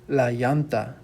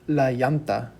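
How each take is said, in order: First: The double L is said like a Y sound. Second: The same.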